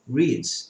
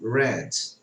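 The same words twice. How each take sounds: First: It is said with the present-tense vowel, like 'reed'. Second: It is said with the past-tense vowel, like 'red'. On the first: The action happens now. "no presente, eu digo read" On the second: The action happened in the past. "No passado, eu falo read"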